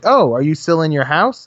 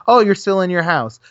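First: Rising, mock-innocent ask; sarcastic mock question; mock surprised question. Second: Falling, knowing sarcastic remark; dry sarcastic conclusion; sarcastic statement. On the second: Retold or imitated.

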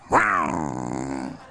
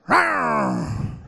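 First: Deep mock growl of desire; low teasing rawr; playful growl. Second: Higher mock growl of desire; high teasing rawr; playful growl.

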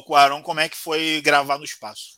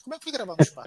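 First: Said in the usual way. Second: High, mocking naive reporter. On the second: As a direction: mimic a clueless journalist asking. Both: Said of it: "uma repórter perguntou".

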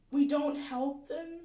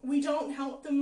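First: "we don't help them" slow and louder, stressing "we"; stressed, slow "we don't help them"; slow emphatic. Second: "We don't help them" louder, with a lot of force; forceful loud repeat. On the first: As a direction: lean on "we" slowly. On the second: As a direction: drive "We don't help them" home loudly. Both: Real, not acted.

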